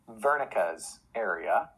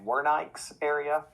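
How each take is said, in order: First: Wernicke is said with a German pronunciation. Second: Wernicke is said with an English pronunciation. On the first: The speaker calls it right. "it's correctly pronounced in German" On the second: The speaker calls it wrong. "I've heard people say"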